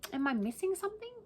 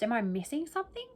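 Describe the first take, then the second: First: Higher, softer repeat of the question; incredulous. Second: Said in the usual way. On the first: Shown as a demonstration. Vlogger asking viewers again, incredulous and higher. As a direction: ask it again as if truly baffled.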